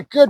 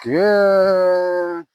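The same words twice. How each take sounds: First: Said in the usual way. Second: Drawn-out soothing good; duration marker. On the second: Real, not acted. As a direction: hold the word long and even. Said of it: "I used my duration marker".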